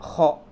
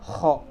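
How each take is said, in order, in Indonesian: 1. Bunyi pertama digesek di tenggorokan. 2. Bunyi pertama digesek di tenggorokan.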